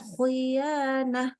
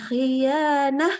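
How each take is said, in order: First: The i vowel sounds darker and more closed. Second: The i vowel stays clear and open. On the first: The speaker calls it wrong. "Tidak menjadi khianah" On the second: The speaker calls it right. "naik aja pangkal lidahnya"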